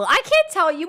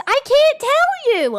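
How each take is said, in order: First: Said in the usual way. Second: Teasing singsong. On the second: Acted. Teasing chat, secretive.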